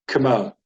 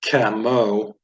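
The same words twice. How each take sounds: First: The first vowel is barely said, moving on quickly. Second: The first vowel is fully pronounced and held. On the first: The speaker calls it right. "it's camo" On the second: The speaker calls it wrong. "it's not camo"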